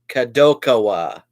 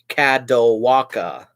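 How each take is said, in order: First: The syllables run ka-do-ka-wa. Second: The syllables run ka-do-wa-ka. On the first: The speaker calls it right. "Kadokawa, not Kadowaka" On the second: The speaker calls it wrong. "That's not how you pronounce it"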